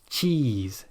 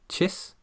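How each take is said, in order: First: The vowel is long with tensed, spread lips. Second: The vowel is short and relaxed, like in bit. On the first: The speaker calls it right. "tense those muscles" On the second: The speaker calls it wrong. "then you won't feel those muscles"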